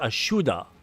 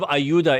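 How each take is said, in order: First: The middle consonant is a 'sh' sound. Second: The middle consonant is a 'y' sound. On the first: The speaker calls it right. "it's Ashuda" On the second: The speaker calls it wrong. "instead of Ayuda"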